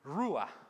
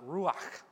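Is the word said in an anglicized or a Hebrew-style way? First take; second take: anglicized; Hebrew-style. First: It is said with a simplified, English-like pronunciation. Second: It is said with an authentic Hebrew pronunciation. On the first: The speaker calls it wrong. "the word for spirit is actually the word ruah" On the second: The speaker calls it right. "or to pronounce it more accurately in Hebrew"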